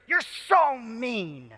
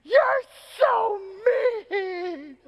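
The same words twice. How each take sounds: First: Higher, drawn-out imitation of an upset kid; milder retelling of a child's outburst; vigorous child's accusation. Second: Very high, mock-crying little girl; hammed-up tearful shriek of an upset kid; passionate child's wail. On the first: Daughter turning on her dad, vigorous accusation. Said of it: "she says with such vigor". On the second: Daughter to dad after the frog is crushed, passionate wail. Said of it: "without a pause in complete passion".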